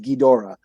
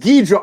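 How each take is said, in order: First: The name is said with three syllables. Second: The name is said with two syllables. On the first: This is the accepted way to say it. The speaker calls it right. "I guess the correct pronunciation is Ghidorah" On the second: This is how the speaker said it for years. The speaker calls it wrong. "it was Ghidra all my life until like three years ago"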